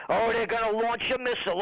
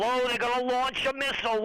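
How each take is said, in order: First: Mock alarm. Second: Mock alarm, higher. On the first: Repeated mock hype. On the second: Repeated mock hype, higher.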